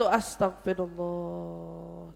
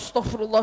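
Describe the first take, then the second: First: It is said slowly with a lowered, calm breath. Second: It is said quickly and hurriedly, in quick repetition. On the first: The anger subsides along with the breath. The speaker calls it right. "sambil yang diturunin kan nafasnya" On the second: The anger does not subside. The speaker calls it wrong. "nggak cepet-cepet gitu"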